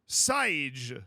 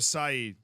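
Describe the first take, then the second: First: The name ends with a 'j' sound. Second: The name ends with a vowel sound. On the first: It follows Brazilian Portuguese. "Is that just a J? That's Brazilian Portuguese. Wrong pronunciation" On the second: It follows European Portuguese. "Just remove the J"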